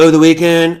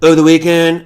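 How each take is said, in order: First: It is said in an imitation of another voice. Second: The same.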